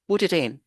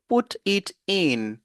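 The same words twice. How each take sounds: First: The words are linked into one unit. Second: The words are said separately, without linking. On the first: The speaker calls it right. "il va vous dire" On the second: The speaker calls it wrong. "vous n'allez jamais entendre ça dans sa bouche"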